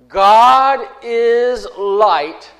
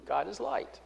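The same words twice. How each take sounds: First: Very slow, louder, every word weighted; God is light declared slowly and loud; proclaimed. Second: Much softer, almost under the breath; softly repeating God is light; quiet restatement. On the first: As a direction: hammer out each word of the message. Preacher proclaims core message. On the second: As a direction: let it drop to a hush. Restates message after proclaiming it. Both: Acted.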